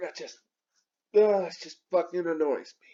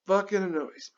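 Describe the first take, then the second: First: Unvoiced muttered complaint under breath; whispered annoyance. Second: Unvoiced, repeating the gripe to himself; whispered annoyance. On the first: Vlogger to camera, whispered irritation. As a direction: grumble it under your breath. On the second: Vlogger to himself, whispered grumble. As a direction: hiss the gripe to yourself. Repeats complaint under breath. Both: Real, not acted.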